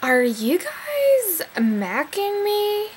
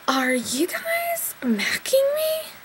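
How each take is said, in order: First: Slow, high imitation of a Yankee accent, stretching guys; teasing a Yankee accent, slow and a bit higher; mock Yankee accent. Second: Much higher, slow, spooky mock Yankee accent on macking; menacing impression of a woman in hair rollers, high and slow, with a Yankee accent; scary hair-roller lady. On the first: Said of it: "in her Yankee whatever person accent". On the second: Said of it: "in her makeupless hair roller scary way".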